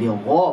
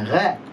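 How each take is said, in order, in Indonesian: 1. Bunyi gh tebal dan berat. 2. Bunyi gh tipis dan ringan. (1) "dibaca tebal atau tafkhim" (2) "bukan gha"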